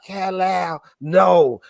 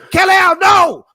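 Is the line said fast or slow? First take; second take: slow; fast. First: The line is said slowly and drawn out. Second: The line is said quickly and urgently.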